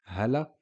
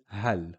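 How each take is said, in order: First: "hala" in two syllables with short final a; fatha after L. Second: "hal" as one syllable closed by L; stop on the L. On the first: Teacher showing the fatha case, final vowel. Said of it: "it has a fatha". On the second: Teacher showing stop on the lam, closed syllable. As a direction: end "hal" on the L, nothing after. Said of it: "We stop on the lam". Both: Shown as a demonstration.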